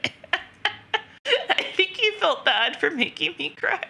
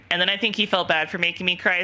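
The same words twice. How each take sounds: First: High, slow, laughing through it; real laughter, much higher and slowed down. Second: Said in the usual way. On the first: Real, not acted. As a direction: giggle your way through the line. Repeats line, second time laughing.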